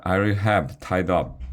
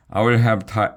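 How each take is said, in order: First: Said in the usual way. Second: False start. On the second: A narrator's reading.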